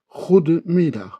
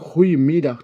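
First: The d sound in the middle is pronounced. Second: The d sound in the middle is dropped. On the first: "goede diyoruz" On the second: "D harfi yutulur"

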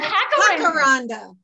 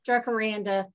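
First: The word begins with an H sound. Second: The word begins with an English J sound. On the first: The speaker calls it right. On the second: The speaker calls it wrong.

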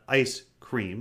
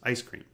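First: Both 'ice' and 'cream' are stressed. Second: Only 'ice' is stressed, not 'cream'. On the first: It is two separate words. The speaker calls it wrong. "So it's not ice cream" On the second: It is a single word. The speaker calls it right. "There's only one stress and it's on ice"

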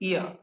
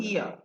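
No difference in how they are said.

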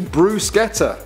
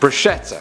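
First: The middle consonant is a 'sk' sound. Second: The middle consonant is a 'sh' sound. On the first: The speaker calls it right. "It's actually bruschetta, not bruschetta. The actual Italians say bruschetta" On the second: The speaker calls it wrong. "That's how I'd say it. I'm not going to lie to you guys, but apparently I'm wrong"

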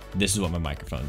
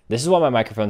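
First: The voice is heard with audio processing applied. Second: The voice is heard with no audio processing. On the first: The speaker calls it right. "This is what my microphone should be sounding like" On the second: The speaker calls it wrong. "without any editing done to it"

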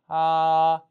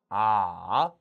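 First: The pitch stays high and level. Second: The pitch dips low and then rises. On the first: "한번더 일성" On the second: "삼성"

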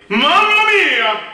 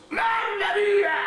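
First: It is a resonant, projected, supported scream. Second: It is a thin scream without resonance.

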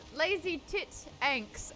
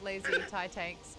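First: The middle syllable sounds like 'tit'. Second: The middle syllable sounds like 'tie'. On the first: "Please let me say it like that" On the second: "I know it's lazy tie tanks"

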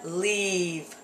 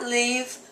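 First: The vowel is long and stretched out. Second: The vowel is short and clipped. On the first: The speaker calls it right. "but leave" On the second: The speaker calls it wrong. "Not leave"

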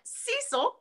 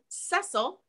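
First: The name is said the American way. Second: The name is said in a non-American way. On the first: It is how people in the States say it. The speaker calls it wrong. "how we would say it here in the States" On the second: It honors the family's home-country pronunciation. The speaker calls it right. "making sure that I said Cecil"

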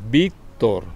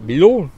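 First: The name is said as 'Víctor', ending in R. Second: The name is said like 'Bidul', ending in L. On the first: The name's owner gave the correct form. The speaker calls it right. "Yo, Víctor" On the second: A foreign speaker mispronounced the name. The speaker calls it wrong. "no era capaz de pronunciar Víctor, sino decía Bidul"

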